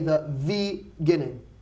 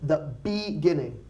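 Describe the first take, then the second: First: The word begins with a V-like sound. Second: The word begins with a clear B sound. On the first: The speaker calls it wrong. "We don't want to say" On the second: The speaker calls it right. "we're going to have to focus on one word"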